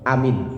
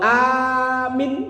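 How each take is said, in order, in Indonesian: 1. Kedua vokal dibaca pendek. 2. Vokal pertama panjang, yang kedua pendek. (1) "A-nya pendek, mimnya pendek" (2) "A-nya panjang, mimnya pendek"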